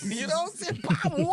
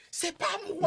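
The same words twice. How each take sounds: First: High, slow drawn-out denial; slow plea. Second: High, pleading inner voice; inner plea. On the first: Son repeats his innocence to mother, in a high slow voice. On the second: Son pleads innocence to mother, in a high panicked voice. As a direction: squeak it like a panicked kid. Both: Retold or imitated.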